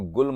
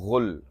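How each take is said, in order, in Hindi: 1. शब्द hard g ध्वनि से शुरू होता है। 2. शब्द गले की gh ध्वनि से शुरू होता है।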